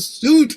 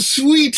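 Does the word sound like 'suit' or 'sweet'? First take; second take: suit; sweet. First: The word sounds like 'suit'. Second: The word sounds like 'sweet'. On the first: The speaker calls it right. "No, no, no" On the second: The speaker calls it wrong. "you have to watch out for that extra e at the end"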